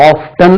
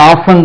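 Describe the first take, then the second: First: Often said OF-tun, T sounded; T pronounced. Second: Often said OFF-un, no T; silent T. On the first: Teacher says this is now allowed, often with audible T. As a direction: hit the T inside often. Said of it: "இப்போ often also allowed". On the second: Teacher recalls the earlier pronunciation, often with silent T. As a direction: drop the T in often. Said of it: "முதல்ல often தான் உச்சரிச்சிருந்தோம்". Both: Shown as a demonstration.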